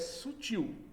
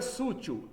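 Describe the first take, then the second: First: The stress is on the final syllable. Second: The stress is on the next-to-last syllable. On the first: The speaker calls it right. "São oxítonos" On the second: The speaker calls it wrong. "Não é sútil"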